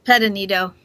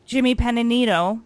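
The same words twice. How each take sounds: First: Correcting the host on Pedanito; name said right. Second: Jimmy Pedanito repeated after the correction, stress on ni; copying the guest's Pedanito; repeating the name. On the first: Correcting the host's pronunciation of the name. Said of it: "you have to say the name". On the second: Host repeats the corrected name, a little louder. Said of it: "What [name] said". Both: Shown as a demonstration.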